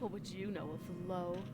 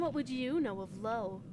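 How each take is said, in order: First: It is spoken in a lower-pitched voice. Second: It is spoken in a higher-pitched voice. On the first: The speaker calls it wrong. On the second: The speaker calls it right.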